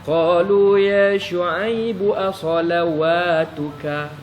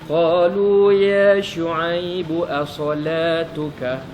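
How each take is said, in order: First: A w sound is pronounced in the middle. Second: No w sound is pronounced in the middle. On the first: The speaker calls it wrong. "dia hidupkan waw itu" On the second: The speaker calls it right. "waw itu tak hidup"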